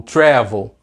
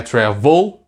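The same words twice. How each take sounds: First: Travel stressed correctly on TRA. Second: Travel with the wrong stress, tra-VEL. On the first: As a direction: punch the first syllable of travel, let VEL fall. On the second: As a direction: push the last syllable of travel up and hard. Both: Shown as a demonstration. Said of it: "A sílaba tônica qual é?".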